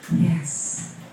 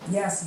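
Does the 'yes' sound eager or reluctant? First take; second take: reluctant; eager. First: It sounds heavy, reluctant and unhappy. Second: It sounds light, eager and upbeat. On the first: The person is determined but not happy about it. "It was like he had so much weight to carry. He wasn't happy at all" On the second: The person is happy to do it. "normally you'd be like"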